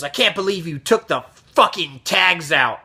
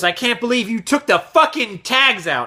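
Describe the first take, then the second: First: Mild mock angry customer; retold anger. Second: Higher-pitched mock angry customer; louder retold anger. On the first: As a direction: imitate an irate accusation, held back. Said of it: "he gets even louder". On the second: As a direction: imitate an irate customer escalating. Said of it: "And he gets even louder".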